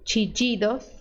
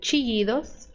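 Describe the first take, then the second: First: The ll is said like an English j. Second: The ll is said like an English y. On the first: "som de D J" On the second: "som de I"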